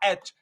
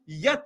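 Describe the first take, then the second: First: The letter name starts with a plain 'e' sound. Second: The letter name starts with a 'ye' sound. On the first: The speaker calls it right. "इसको हम पढ़ते क्या? एच" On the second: The speaker calls it wrong. "यच नहीं पढ़ते"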